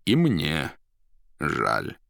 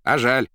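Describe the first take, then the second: First: Measured agreement dropping low; confirming stranger. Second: Loud, high, cocky retort; bully poet. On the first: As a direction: agree with a pause, sinking on the last word. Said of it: "подтвердил неизвестный". (веско, с падением голоса) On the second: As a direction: throw it back like a scrappy poet. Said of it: "отозвался задира поэт". (громко, задиристо) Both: A narrator's reading.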